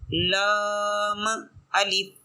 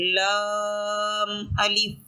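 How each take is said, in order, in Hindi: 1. इसे गूंज वाले उछाल (qalqala) के साथ बोला जाता है। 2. इसे बिना गूंज वाले उछाल के, सहजता से बोला जाता है। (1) "ये कलकला महसूस हो जाएगा" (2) "ये तो बिल्कुल ठीक है"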